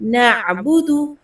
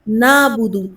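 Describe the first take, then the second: First: A throat catch follows the first vowel. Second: The first vowel is simply lengthened. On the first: The speaker calls it right. "नून ज़बर आइन ना होता है" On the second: The speaker calls it wrong. "नून ज़बर अलिफ नाबुदु नहीं पढ़ना"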